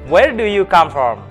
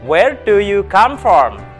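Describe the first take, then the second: First: The question is spoken at a very fast pace. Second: The question is spoken at a fast pace. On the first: "Lebih cepat lagi" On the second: "Lebih cepat"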